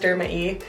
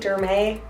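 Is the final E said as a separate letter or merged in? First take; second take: separate; merged. First: The final E is said as a separate letter. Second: The final E is merged into the word. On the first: The speaker calls it right. "I'm pretty sure it's Derma E" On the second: The speaker calls it wrong. "I always want to pronounce them Derme"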